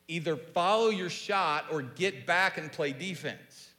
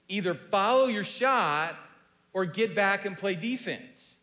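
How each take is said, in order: First: It is said at normal volume. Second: It is said loudly.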